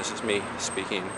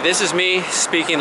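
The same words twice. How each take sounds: First: The voice is quieter than normal. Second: The voice is louder than normal. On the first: "speaking more quietly than I normally do" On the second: "speaking louder than I normally do"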